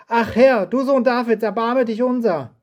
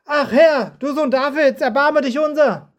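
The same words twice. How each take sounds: First: Crying out. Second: High, loud pleading cry for mercy; much louder cry. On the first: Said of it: "schrien sie". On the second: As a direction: cry out louder, begging to be heard. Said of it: "Doch sie schrien noch viel lauter". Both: Acted.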